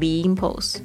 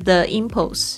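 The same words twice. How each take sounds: First: The word 'the' is said like 'thee'. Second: The word 'the' is said like 'thuh'. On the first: The speaker calls it right. "为什么要讲the impulse？ ... 如果是碰到了元音开头的 ... 通常会变成the" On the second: The speaker calls it wrong. "为什么不讲the impulse？"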